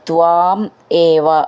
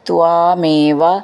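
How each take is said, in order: First: The two words are said separately. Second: The two words are run together.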